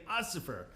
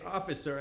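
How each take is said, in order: First: Ossifer with an s sound in place of the f; nervous mispronunciation. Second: Said in the usual way. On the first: Retold or imitated. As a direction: say Ossifer, swapping the f for an s. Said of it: "I just kept saying". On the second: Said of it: "I couldn't say".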